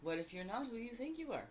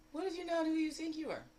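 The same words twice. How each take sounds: First: Said in the usual way. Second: Higher and louder, leaning hard on "not"; stress on not. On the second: Retold or imitated. Quoting Kelly B, stressing "not" loudly. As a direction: punch "not" like Kelly B would. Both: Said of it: "I love how Kelly B says that".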